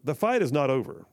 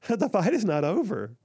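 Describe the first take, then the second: First: It is read in a firm, assertive voice. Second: It is read in a mocking, put-on voice. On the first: "let me stop reading in an assertive voice" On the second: "Let me read it like she would read it"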